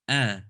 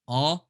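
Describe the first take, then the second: First: Said with lips spread sideways, sounding thinner. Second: Said with the jaw dropped, sounding full. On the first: The speaker calls it right. "the smiley version" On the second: The speaker calls it wrong. "the my jaw dropping version"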